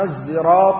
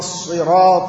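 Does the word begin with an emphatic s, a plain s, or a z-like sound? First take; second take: z-like; emphatic s. First: It begins with a sound close to z. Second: It begins with an emphatic, heavy s sound. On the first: "بالإشمام بين السين والصاد بما يشبه الذال التي ينطقها العامة زايا" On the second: "بالصاد"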